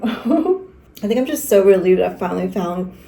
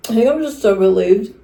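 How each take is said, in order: First: Said in the usual way. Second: Talking through a mouthful of cookie; words around a bite of food; mouth full. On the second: Real, not acted. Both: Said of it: "stop talking with my mouth full".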